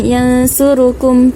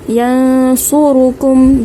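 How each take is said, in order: First: The s sound is thin and light. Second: The s sound is thick and heavy. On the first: The speaker calls it wrong. "bukan yansurukum" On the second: The speaker calls it right. "pastikan kita tebalkan huruf sad ini"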